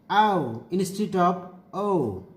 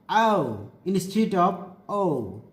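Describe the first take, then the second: The two takes are said the same way.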